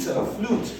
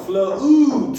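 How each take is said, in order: First: Flute breathed in a whisper, no voice. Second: Flute called out loud and high. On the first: Teacher repeating the word for pupils, whispered. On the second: Teacher drilling the word for pupils, loud call. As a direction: belt the word Flute out to the class. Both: Shown as a demonstration. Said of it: "U space E as in flute".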